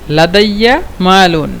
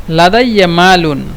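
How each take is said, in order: No difference in how they are said.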